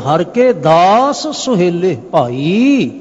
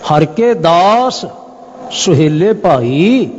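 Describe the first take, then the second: First: Certain words are emphasized to bring out meaning. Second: The same.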